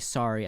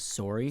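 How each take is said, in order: First: The word is said without a Canadian sound. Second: The word is said with a Canadian sound. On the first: The speaker calls it right. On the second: The speaker calls it wrong.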